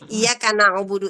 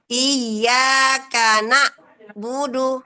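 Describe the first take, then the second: First: The throat sound flows slightly before budu. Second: The throat sound stops fully before budu. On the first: The speaker calls it right. "maka ainnya mengalir" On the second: The speaker calls it wrong. "Iya karena budu terem Bun"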